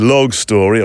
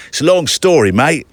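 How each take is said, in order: First: Said in the usual way. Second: Higher-pitched, lightly imitated London accent. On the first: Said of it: "or probably he said". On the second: London fiddle player explaining himself, light London accent. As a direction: quote him in a chummy London accent. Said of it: "a very London accent".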